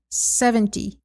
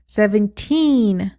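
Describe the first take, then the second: First: Said in the usual way. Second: Put-on Seventeen, slow, with a long loud teen; stress on teen. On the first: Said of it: "Se eu não dou a ênfase". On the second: Shown as a demonstration. Teacher contrasts for students: Seventeen, long stressed teen. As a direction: stretch and punch the teen in Seventeen. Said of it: "quando eu dou a ênfase no teen".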